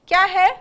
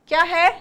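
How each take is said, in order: The two takes are said the same way.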